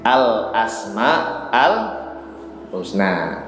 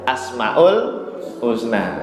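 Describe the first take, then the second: First: It is said with 'al' before 'asma'. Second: It is said without 'al' before 'asma'. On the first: The speaker calls it right. "Pelafatan yang benar itu pakai al Pak depannya" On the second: The speaker calls it wrong. "Kalau kita kebiasaannya tanpa al ya"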